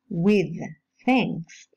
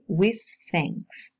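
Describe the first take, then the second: First: The th at the end of 'with' is voiced. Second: The th at the end of 'with' is voiceless. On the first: "with finishes with a voiced uh, dental fricative sound" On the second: "may change into a, a voiceless one"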